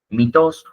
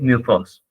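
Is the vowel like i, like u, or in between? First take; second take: i; in between. First: The first vowel sounds like a plain i. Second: The first vowel sounds between i and u. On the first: "a veces lo van a ver pronunciado como mitos" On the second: "una mezcla entre la I y la U"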